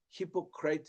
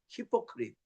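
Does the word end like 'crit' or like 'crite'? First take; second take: crite; crit. First: The last syllable has a long 'eye' vowel. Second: The last syllable has a short 'i' vowel. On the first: The speaker calls it wrong. "히포크라이트 이 발음했다가 그게 아니라는 거예요" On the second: The speaker calls it right.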